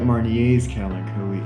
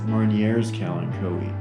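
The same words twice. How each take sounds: First: The final r of Marnier is silent. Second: The final r of Marnier is pronounced. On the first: The speaker calls it right. "I call it" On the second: The speaker calls it wrong. "one YouTube plant care aficionado pronounce it as"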